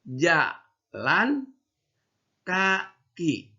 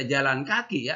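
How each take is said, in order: First: "Jalan" rising, a pause, then "kaki" falling; right reading. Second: "jalan kaki" run together, with no pause; wrong reading. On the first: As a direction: say it apart, the correct way. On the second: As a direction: rush the two words into one. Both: Shown as a demonstration. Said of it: "ya, salah".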